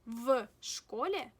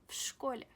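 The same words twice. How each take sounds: First: The first sound is a voiced v. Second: The first sound is a voiceless f. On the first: The speaker calls it wrong. "Instead of saying в школе" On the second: The speaker calls it right. "we will pronounce V as F"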